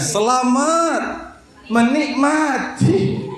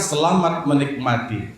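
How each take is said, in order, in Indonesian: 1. Kata terakhir terputus dengan jeda di dalamnya. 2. Kata terakhir diucapkan lancar sebagai satu kata. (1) "dia diputusnya" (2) "Aturan kan"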